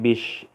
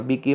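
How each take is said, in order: First: The word ends in a sh sound. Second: The word ends in a ki sound. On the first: "biki menjadi bish" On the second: "biki menjadi bish"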